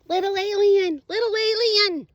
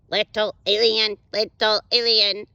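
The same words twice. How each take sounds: First: It is said in a normal voice. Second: It is said in a robot voice.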